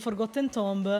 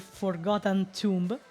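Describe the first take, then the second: First: The name is said with Italian-style pronunciation. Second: The name is said with English-style pronunciation. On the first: The speaker calls it wrong. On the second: The speaker calls it right.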